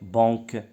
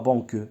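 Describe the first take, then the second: First: The vowel is nasal with no separate n. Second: The vowel is followed by an audible n. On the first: The speaker calls it right. "c'est banque" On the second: The speaker calls it wrong. "On ne dit pas banque"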